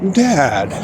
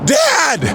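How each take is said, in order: First: It is said thoughtfully. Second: It is said impetuously.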